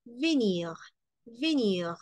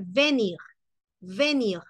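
First: "venir" with a muted, rounded first e; unaccented-E venir. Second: "venir" with a clear é, VÉ-nir; accented-E venir. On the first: Teacher showing it without the accent, unaccented-E venir. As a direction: keep the first vowel of "venir" a neutral French e. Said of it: "pero no está tildada". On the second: Teacher showing it if the E were accented, accented-E venir. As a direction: open the first vowel of "venir" to é. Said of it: "Si aquí la E estuviese tildada". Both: Shown as a demonstration.

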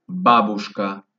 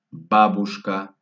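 The two takes are said the same way.

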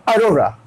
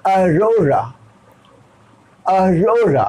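First: "Arora" quick and run together; fast pronunciation. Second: "Arora" drawn out, long middle ro; slow model pronunciation. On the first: Teacher shows the everyday speed, "Arora" said quickly. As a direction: say "Arora" briskly in one go. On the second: Teacher shows how to read it, "Arora" slowly stretched. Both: Shown as a demonstration. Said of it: "fast में".

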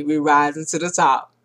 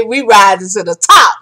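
First: Much softer and lower, like an afterthought; quiet echo. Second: Proud and ringing, a rising finish; triumphant declaration. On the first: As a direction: let the slogan fade out. Closing the video, winding down. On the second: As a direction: announce the victory to the team. Declaring triumph to her team. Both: Real, not acted.

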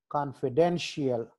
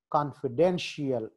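The two takes are said the same way.

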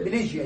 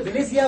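First: بليجيا said with a j sound; j pronunciation. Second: بليزيا said with a z sound; z pronunciation. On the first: Lecturer showing students the other accepted pronunciation, بليجيا with a j. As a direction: pronounce بليجيا with j, as "blijia". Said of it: "وساعات بتتنطق بليجيا". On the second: Lecturer showing students one accepted pronunciation, بليزيا with a z. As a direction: pronounce بليزيا with z, as "blizia". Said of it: "ساعات بتتنطق بليزيا وساعات بتتنطق بليجيا". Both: Shown as a demonstration.

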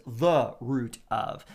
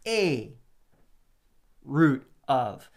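First: Said in the usual way. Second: "a" stressed, louder. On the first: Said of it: "some translations it says". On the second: Shown as a demonstration. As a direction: hit "a" before "root of". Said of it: "I highlighted and underlined".

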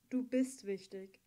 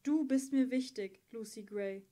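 First: Sincere, slow. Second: Louder, pressing on du; louder insistence on "Du bist mir wichtig"; insistent repeat. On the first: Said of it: "sagte er". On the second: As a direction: push hard on "du", meaning every word. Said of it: "wiederholte er". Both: Acted.

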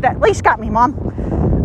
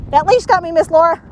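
First: Voicing the dog. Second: Voicing the dog again. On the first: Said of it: "Oh, he said". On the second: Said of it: "I'm not Mom".

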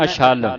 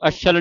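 First: ਅਛਲ as a-shall, opened out; distinct initial a. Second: ਅਛਲ with short vowels, ash-shal; wrong short reading. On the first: Teacher models correct reading, ਅਛਲ as a-shall. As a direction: separate the first a in ਅਛਲ. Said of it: "ਐੜੇ ਨਾਲ ਉਚਾਰਨ ਕਰਨੇ". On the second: Teacher shows what to avoid, ਅਛਲ kept short. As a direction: hurry through ਅਛਲ without opening the vowel. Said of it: "ਅਛਲ ਨਹੀਂ ਪੜ੍ਹਨਾ". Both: Shown as a demonstration.

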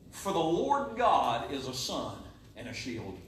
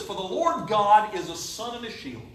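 First: Slow, low, soft scripture; quiet verse. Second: Said in the usual way. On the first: Acted. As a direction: lay the verse down gently. Verse repeated quietly and slowly.

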